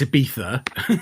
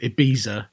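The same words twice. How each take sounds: First: The middle consonant is a th sound. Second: The middle consonant is a z sound. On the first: The speaker calls it right. "No, it's Ibiza, spelled with a Z" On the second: The speaker calls it wrong. "So you get people who call it um"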